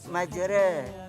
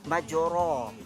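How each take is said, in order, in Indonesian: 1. Vokal akhir sedikit bergeser ke arah e. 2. Kata ini berakhir dengan vokal a terbuka. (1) "Kalau baris taklil kita baca majra" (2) "Kalau baris di atas kita baca majra"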